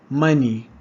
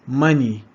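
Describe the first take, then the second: Both takes have the same delivery.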